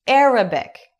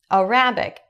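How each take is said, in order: First: The stress is on the first syllable. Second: The stress is on the second syllable. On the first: It means the Arabic language. The speaker calls it right. "a pronúncia em inglês para dizer árabe é Arabic" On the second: It sounds like the words for a rabbit. The speaker calls it wrong. "E eu entendi a rabbit"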